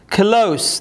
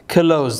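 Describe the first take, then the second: First: The word ends with a soft s sound. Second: The word ends with a z sound. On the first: It means near. The speaker calls it right. "Yumshoq s harfi oxirida" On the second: It means to shut. The speaker calls it wrong. "deb ketganlar"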